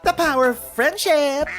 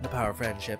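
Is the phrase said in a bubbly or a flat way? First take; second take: bubbly; flat. First: It is said with bright, gushing enthusiasm. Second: It is said plainly, without much enthusiasm. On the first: The speaker calls it right. "that many rainbows" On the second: The speaker calls it wrong. "You're not saying it right"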